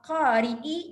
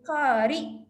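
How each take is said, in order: First: The word ends with a short vowel. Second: The word ends on the glottal stop.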